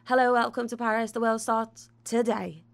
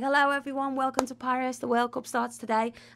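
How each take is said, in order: First: It is said in a neutral accent. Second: It is said in a Scouse accent.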